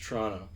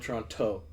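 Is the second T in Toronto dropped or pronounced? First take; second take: dropped; pronounced. First: The second T is dropped entirely. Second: The second T is pronounced as a hard T. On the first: The speaker calls it right. "just Toronto" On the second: The speaker calls it wrong. "You don't pronounce the hard T at the end. No Toronto"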